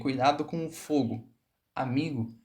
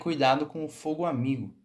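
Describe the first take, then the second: First: A pause separates the last word from the rest. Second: The phrase runs on without a pause. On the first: A friend is being warned about fire. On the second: A warning about fire from one's own allies.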